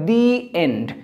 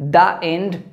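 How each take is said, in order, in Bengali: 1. 'The' উচ্চারিত হয় লম্বা ee স্বরধ্বনি দিয়ে। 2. 'The' উচ্চারিত হয় ছোট uh স্বরধ্বনি দিয়ে। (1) "এন্ডের আগে উচ্চারণ হবে দি এন্ড" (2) "দ্য এন্ড নয়"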